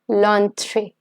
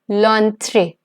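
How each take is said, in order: First: The article and noun are joined into one word. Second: The same.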